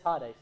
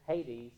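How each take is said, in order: First: It is the original Greek pronunciation. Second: It is the familiar English pronunciation. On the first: The speaker calls it right. "but it is Hades" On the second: The speaker calls it wrong. "typically we hear Hades"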